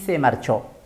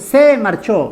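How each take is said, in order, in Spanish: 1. La palabra "se" es átona; "marchó" es tónica. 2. La palabra "se" tiene un acento fuerte. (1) "Esta es una palabra átona" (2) "Acá no decimos"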